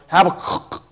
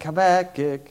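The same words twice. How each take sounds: First: It is said with a rough guttural throat sound. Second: It is said with plain English consonants.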